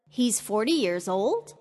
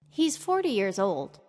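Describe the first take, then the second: First: It rises high in pitch, sounding surprised. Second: It is a plain statement with falling tune.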